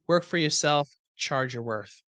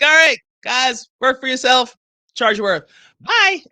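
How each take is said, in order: First: Said in the usual way. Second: Mock farewell. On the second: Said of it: "I'm like".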